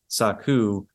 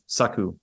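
First: The word is said slowly with English rhythm. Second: The word is said quickly and smoothly. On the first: The speaker calls it wrong. "It's not saku" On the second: The speaker calls it right. "much quicker"

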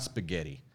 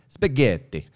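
First: It is said with a plain English accent. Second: It is said with an Italian rhythm and accent. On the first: The speaker calls it wrong. "It's not spaghetti" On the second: The speaker calls it right. "It's spaghetti"

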